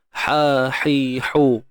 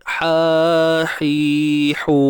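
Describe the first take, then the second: First: Each vowel is held briefly. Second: Each vowel is held twice as long. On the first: "ha satu harakat" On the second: "Ha pedas dua harakat"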